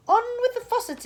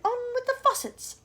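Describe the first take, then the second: First: High, loud shout from afar. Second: Shout. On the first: Cloud man shouting orders from above, high and loud. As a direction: bellow down from the cloud. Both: Acted. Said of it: "it shouted".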